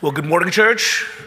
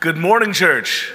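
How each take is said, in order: First: It is said with ordinary, lower energy. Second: It is said with more energy and volume.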